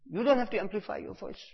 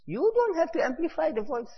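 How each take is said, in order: First: Said in the usual way. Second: High, thin imitating voice; mock high voice. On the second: Preacher mimicking the Shaykh's remark, high-pitched. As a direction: squeak the line up high as a joke. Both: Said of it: "Hazrat said".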